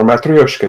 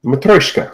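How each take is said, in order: First: Matryoshka as "mat-ree-OHSH-kuh"; alternative pronunciation. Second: Matryoshka in three syllables, "muh-TROYSH-kuh"; alternative pronunciation. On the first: Host offering the other way, Matryoshka as "mat-ree-OHSH-kuh". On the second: Host offering one way to say it, Matryoshka as "muh-TROYSH-kuh". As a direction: say Matryoshka with "troy" in the middle. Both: Shown as a demonstration. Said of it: "depending on how you want to pronounce it".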